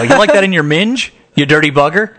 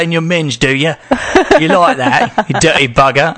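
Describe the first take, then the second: First: Plain American accent on British slang. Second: Mock British accent, playful dirty talk; lightly put-on British accent, teasing. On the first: Shown as a demonstration. Host shows British slang in American accent. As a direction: say it flatly American, higher. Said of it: "Weirder with an American accent". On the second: Host tries British slang dirty talk, mock British accent. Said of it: "Weirder with an American accent, though".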